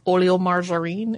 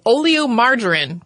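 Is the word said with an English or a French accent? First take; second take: French; English. First: It is said with a French accent. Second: It is said with an English accent.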